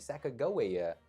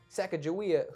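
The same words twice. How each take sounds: First: The G is hard, as in go. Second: The G is soft, like a J.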